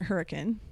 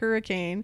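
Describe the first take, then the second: First: It is pronounced the way locals say it. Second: It is pronounced the general, spelled-out way. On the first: This is how residents say the name. The speaker calls it right. "but we pronounce it Hurricane" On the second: Saying it this way marks the speaker as a tourist. The speaker calls it wrong. "if you call it Hurricane, you're going to out yourself as a tourist"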